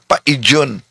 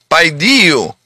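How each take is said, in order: First: The word ends with an n sound. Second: The word ends on a vowel sound. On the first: The speaker calls it wrong. "Akala niya, ito'y in. Oh, hindi yan in" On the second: The speaker calls it right. "Napakalinaw 'yon kung paano bigkasin"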